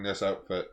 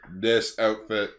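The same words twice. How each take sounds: First: Said in the usual way. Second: "This" slow and loud, spelled out; deliberate, emphatic "This", drawn out; stress on "This". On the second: Pretend. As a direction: lean firmly and slowly on "This". Repeated for emphasis, mock director.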